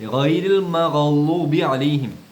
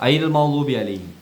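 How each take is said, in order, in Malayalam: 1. ആദ്യ വാക്ക് തൊണ്ടയിൽ നിന്നുള്ള gh ശബ്ദത്തോടെയാണ് തുടങ്ങുന്നത്. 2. ആദ്യ വാക്ക് നേരിട്ട് സ്വരാക്ഷരത്തോടെയാണ് തുടങ്ങുന്നത്. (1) "അട ഗാ ആണ്" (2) "ചില ആളുടെ ഐരിൽ മഗ്ളൂബി ആവും"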